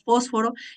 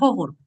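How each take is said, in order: First: It is said in a highland accent, s firm. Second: It is said in a coastal accent. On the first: "nosotros asentamos más" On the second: "los costeños decían"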